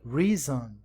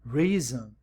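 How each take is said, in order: Both takes have the same delivery.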